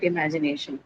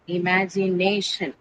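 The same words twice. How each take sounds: First: Said in the usual way. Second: "Imagination" slowly broken into i-ma-gi-na-tion; syllable by syllable. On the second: Shown as a demonstration. Teacher shows students how to write it, "Imagination" slowly syllable by syllable. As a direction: spell out "Imagination" by ear, slow, part by part. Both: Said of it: "this is how you will write imagination".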